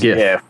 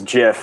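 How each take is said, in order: First: The word starts with a hard G sound. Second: The word starts with a soft G sound. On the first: The speaker calls it right. "the correct way of saying it. Which is GIF" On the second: The speaker calls it wrong. "there's GIF"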